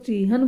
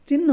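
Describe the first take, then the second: First: It is two syllables with a long first vowel. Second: It is one short syllable ending in 'nh'. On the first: The speaker calls it wrong. "कई इसको चीहन बोलते हैं, रोंग उच्चारण होता है" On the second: The speaker calls it right. "सही उच्चारण क्या होता है? चिन्ह होता है"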